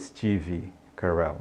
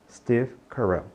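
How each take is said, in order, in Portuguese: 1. Uma vogal extra é acrescentada depois da consoante final. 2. A consoante final é pronunciada sem vogal acrescentada. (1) "não diga Steve Carell" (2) "não coloque essa vogal de apoio aí"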